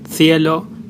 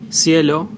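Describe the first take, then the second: First: The c is said like a th. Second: The c is said like an s. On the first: "it's mostly the th sound" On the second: "it sounds as an S"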